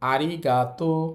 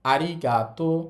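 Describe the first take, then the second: No difference in how they are said.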